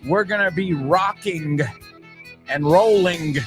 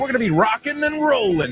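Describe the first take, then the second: First: The final g sounds are fully pronounced. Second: The final g sounds are dropped. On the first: The speaker calls it wrong. "I would never say" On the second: The speaker calls it right. "no usamos el G del gerundio"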